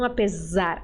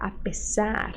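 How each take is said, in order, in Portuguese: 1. A consoante do meio é um som de z sonoro. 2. A consoante do meio é um som de s sibilante. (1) "o brasileiro tem a tendência de transformar essa letra S em Z" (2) "letra S ... sempre tem som de S"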